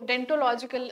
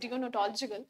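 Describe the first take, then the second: First: The word begins with the sound 'dent'. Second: The word begins with the sounds 'dee-on'. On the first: The speaker calls it wrong. "डेंटोलॉजिकल नहीं pronounce करना आपको" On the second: The speaker calls it right. "It is डियोनोटोलॉजिकल"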